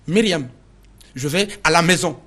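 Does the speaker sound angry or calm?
angry. The sentence is said in an angry tone. "ça change de ton"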